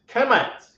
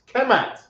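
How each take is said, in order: No difference in how they are said.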